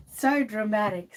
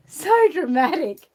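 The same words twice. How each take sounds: First: Said in the usual way. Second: Louder and higher, drawn out slowly; hammed-up teasing. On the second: Shown as a demonstration. So dramatic drawn out slowly, much louder and higher. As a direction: ham up the so dramatic.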